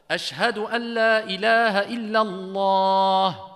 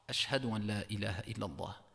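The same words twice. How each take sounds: First: It is said in a raised, loud voice. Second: It is said in a low, quiet voice.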